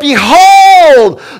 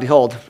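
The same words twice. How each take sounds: First: The word is said with lively excitement. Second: The word is said flatly, without excitement. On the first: Something amazing is being pointed out. The speaker calls it right. "There's an excitement" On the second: Something ordinary is being pointed out. The speaker calls it wrong. "That doesn't sound very exciting"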